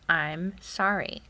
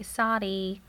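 First: Slow teaching model. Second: Put-on "Sorry" said the toddler way, "sah-dee", with a d in place of the r. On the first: Shown as a demonstration. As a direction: slowly spell out sorry for a child, "I'm sorry" said in full. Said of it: "you say". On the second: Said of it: "And she'll say".

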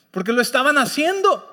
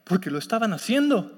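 First: Laughing emphasis. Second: Said in the usual way. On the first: Shown as a demonstration. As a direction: laugh as you drive the point home.

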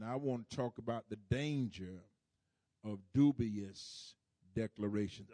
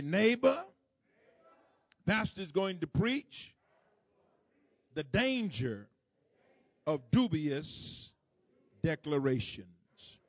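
First: Said in the usual way. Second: High, loud voice through a mask. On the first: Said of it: "You have to enunciate". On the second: Pretend. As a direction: enunciate hard, as if through a mask. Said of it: "just use your masked voice".

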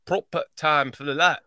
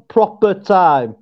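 First: Learner's Yorkshire "proper time"; imitated Yorkshire accent. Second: Slow Yorkshire "proper time"; Yorkshire demonstration. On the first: Host tries what he was shown, Yorkshire imitation. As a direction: copy the northern English phrase. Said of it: "Like, that's what". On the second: Shown as a demonstration. Co-host shows how it goes, slow Yorkshire accent. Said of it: "So it's sort of like".

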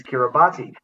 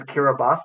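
First: Kiribati said "kira-bah-tee"; "Kiribati" with "tee" sounded at the end; commonly heard pronunciation. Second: Kiribati said "kira-bahs"; "Kiribati" ending in an s sound; pronunciation as first learnt. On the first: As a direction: say Kiribati as it is spelt. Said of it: "all I ever hear anyone saying". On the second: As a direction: say Kiribati with no "tee" at the end. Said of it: "I learnt it as". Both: Shown as a demonstration.

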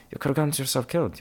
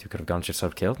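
First: Quick, high reproach; high-pitched scolding. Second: Said in the usual way. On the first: Acted. Traveller telling himself off, high and quick scolding. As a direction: scold yourself in a raised pitch.

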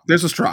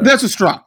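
First: Said in the usual way. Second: Emphatic. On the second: Real, not acted. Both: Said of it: "I should have mentioned that".

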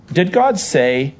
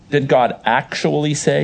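First: Said in the usual way. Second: "Did God actually say?" with a pointed push on "actually"; stress on actually. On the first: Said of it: "If I say". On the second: Shown as a demonstration. Pastor demos the serpent's challenge, stressing actually. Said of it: "There's more of an emphasis".

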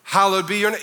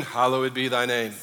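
First: Said in the usual way. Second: A mock traditional recital of "thy name"; old-fashioned wording. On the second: Shown as a demonstration. Preacher mocking the old King James wording, low and stiff. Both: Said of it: "Isn't that better than".

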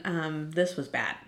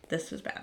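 First: Said in the usual way. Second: This was bad breathed out softly with no voice; whispered. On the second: Real, not acted. Friend mourning her dog, whispering softly to the audience. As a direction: whisper the repeat as the grief sinks in. Repeats grief line twice.

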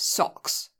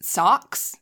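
First: Socks with a short rounded British O; hard O. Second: Socks with a long AH vowel, like "sahks"; American vowel. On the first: Emigrant showing own way, socks with hard O. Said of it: "like, a hard O". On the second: Friend imitating American co-host, socks with long AH. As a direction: draw out "socks" slowly as "saahks". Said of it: "Because you say it, like, A U X". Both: Shown as a demonstration.

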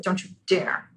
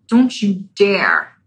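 First: Hushed warning. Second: Slow warning. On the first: Ego clinging to identity, hushed. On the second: Ego clinging, drawn out. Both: Acted.

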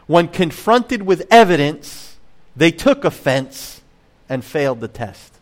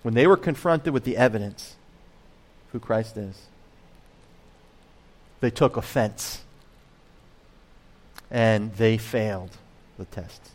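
First: Each line measured and slow, stress on "took" and "failed"; slow rhyming recital. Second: Plain. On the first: Pastor reciting his rhyme to the congregation, slow and measured. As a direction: recite it like a poem, slowly, leaning on "took" and "failed". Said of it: "I think we're gonna put it this way". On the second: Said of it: "That's what I think happens here". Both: Shown as a demonstration.

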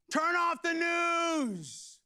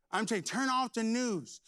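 First: Drawn-out, high, loud order; slow shouted command. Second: Said in the usual way. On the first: Real, not acted. Preacher ordering the congregation, slow shout. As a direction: stretch every word out.

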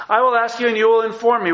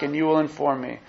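First: Higher and louder, God commanding Job; God demanding answers. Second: Said in the usual way. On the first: Acted. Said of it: "He's saying". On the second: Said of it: "Job said in reply to the Lord".

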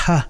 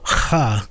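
First: "h" sounded lightly, without the guttural rasp; plain h sound. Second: "ha" with a throat-clearing scrape at the start; drawn-out "ha", Hebrew guttural onset; hard guttural ch. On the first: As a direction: say "h" as a simple puff of air, like "ha". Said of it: "it's also not a h sound". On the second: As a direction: rasp the start of "ha" in the back of the throat. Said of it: "that hard". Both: Shown as a demonstration.

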